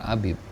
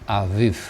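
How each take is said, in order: First: The middle consonant is a b sound. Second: The middle consonant is a v sound. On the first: The speaker calls it wrong. "harusnya bukan Abib" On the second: The speaker calls it right. "tapi Aviv gitu ya, karena nggak ada titik di tengahnya"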